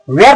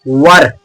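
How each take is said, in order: First: वेयर with an "air" vowel; misread "were". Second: वर, one low syllable with an uh vowel; correct "were" pronunciation. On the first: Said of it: "बिल्कुल गलत". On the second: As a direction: say वर lower, short vowel, no "air". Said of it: "इसको केवल वर पढ़ा जाता है". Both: Shown as a demonstration.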